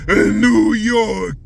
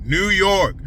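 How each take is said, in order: First: "New York" stretched slow and loud; drawn-out New York accent. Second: Said in the usual way. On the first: Shown as a demonstration. New York accent, shouting the city name out slow. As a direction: lean hard on "New" in a New York drawl. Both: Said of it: "I should use the new New York accent".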